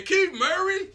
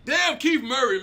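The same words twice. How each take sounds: First: Incredulous. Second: Said in the usual way. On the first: Real, not acted. Incredulous repeat of the name.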